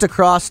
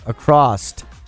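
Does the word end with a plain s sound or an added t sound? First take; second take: plain s; added t. First: The word ends with a plain s sound. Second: The word ends with an added t sound. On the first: "So it's just across the bridge" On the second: "pronounces across with an ED at the end"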